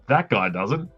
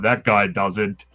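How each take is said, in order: First: It is said in a broad Australian accent. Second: It is said in a non-Australian accent. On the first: This is how the speaker himself sounds. The speaker calls it wrong. "he didn't say it like that. That's how I sounded" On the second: This is how the other man actually said it. The speaker calls it right. "He's like"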